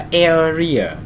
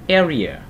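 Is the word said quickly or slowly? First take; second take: slowly; quickly. First: The word is said slowly with a drawn-out vowel. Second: The word is said quickly with a clipped vowel. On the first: The speaker calls it wrong. "Cái chữ ơ này nó lướt hơi nhanh, mình không sẽ không đọc là area" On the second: The speaker calls it right. "chúng ta sẽ đọc nhanh hơn một chút xíu"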